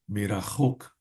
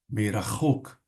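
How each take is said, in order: The two takes are said the same way.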